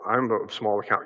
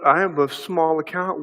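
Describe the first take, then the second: First: It is said in a humble, conceding tone. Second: It is said in a mocking, sarcastic tone. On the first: The speaker genuinely admits being in the wrong. "You can read it differently. ... Conceding, right?" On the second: The speaker resents being overpowered. "read it this way, ... as very sarcastic"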